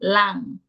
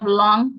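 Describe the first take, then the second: First: The vowel is an open 'ah' sound. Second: The vowel is the standard English 'aw' sound. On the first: "in Jamaica, we would say lang vowel" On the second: "Instead of long"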